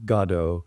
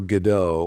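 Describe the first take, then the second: First: The name is said the British way. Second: The name is said the usual American way.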